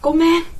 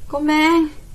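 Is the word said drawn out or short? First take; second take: short; drawn out. First: The word is said short and quick. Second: The word is stretched out and lengthened.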